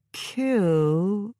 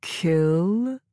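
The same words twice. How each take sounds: First: Robot voice, slow and doubtful; a machine that forgot the word; dubious robot voice. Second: Slow robot, rising unsure; a machine doubting its own order; uncertain robot voice. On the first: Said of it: "but it sounded dubious". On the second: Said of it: "though it sounded uncertain". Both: Acted.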